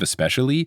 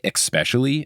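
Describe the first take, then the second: First: The word starts with an 'es' sound. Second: The word starts with an 'ex' sound. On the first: The speaker calls it right. "It's never had an X in it ever" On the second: The speaker calls it wrong. "when people say especially instead of"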